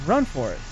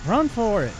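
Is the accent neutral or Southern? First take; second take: neutral; Southern. First: It is spoken in a neutral accent. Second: It is spoken in a Southern accent. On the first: The speaker calls it right. "There we go" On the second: The speaker calls it wrong. "I went southern on that for some reason"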